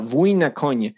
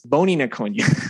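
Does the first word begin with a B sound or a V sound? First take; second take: V sound; B sound. First: The first word begins with a V sound. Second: The first word begins with a B sound. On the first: The speaker calls it right. "that's like warrior on horseback" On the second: The speaker calls it wrong. "But I thought it was boni na konja. That was how I was saying it"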